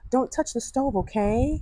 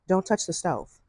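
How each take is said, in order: First: It sounds hesitant and hopeful, like a suggestion. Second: It sounds firm and serious, like an instruction.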